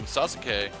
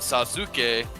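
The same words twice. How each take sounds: First: The middle 'u' vowel is dropped or nearly silent. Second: The middle 'u' vowel is clearly pronounced. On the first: This is how people actually say the name. The speaker calls it right. "but they call him Sasuke because that U between the two consonants" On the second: This is how the name is written. The speaker calls it wrong. "It's spelled Sasuke"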